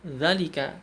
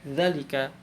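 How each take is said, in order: The two takes are said the same way.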